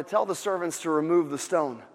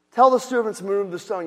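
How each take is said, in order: First: Said in the usual way. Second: Louder, stressing "Tell"; forceful louder restatement; emphatic repeat. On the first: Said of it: "he says". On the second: Shown as a demonstration. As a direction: hammer the command home. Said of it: "repeated with emphasis".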